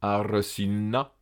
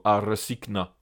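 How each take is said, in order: First: "Arsinna" with a long double N. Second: "arsikna" with a hard stop before N; GN as separate consonants. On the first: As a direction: hold the NN in "Arsinna", slowly. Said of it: "se prononce au choix comme une double N". (« Arsinna » avec un double N) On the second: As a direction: sound both consonants in "arsikna". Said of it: "ou bien G N, gn". (« arsikna » avec G dur puis N) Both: Shown as a demonstration.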